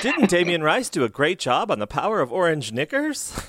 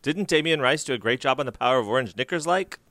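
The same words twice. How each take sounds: First: "Knickers?" with an ordinary question rise; plain question. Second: Sentence runs on into a rising "like?" Cork style; tag on like. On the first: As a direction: ends on "Knickers?" as a normal American question. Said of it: "you would not put a full stop". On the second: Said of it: "and you would say, "Like". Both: Shown as a demonstration.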